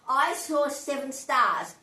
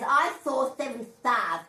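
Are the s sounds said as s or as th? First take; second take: s; th. First: The s sounds are said as clear s. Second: The s sounds are said as th.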